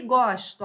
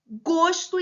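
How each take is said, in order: First: "gosto" with an open O, "GÓS-to", loud. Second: "Gosto" with a closed O, "GÔS-to", loud. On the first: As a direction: say "gosto" with a wide ó. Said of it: "pronúncia com O aberto". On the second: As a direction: say "Gosto" with a rounded ô. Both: Shown as a demonstration.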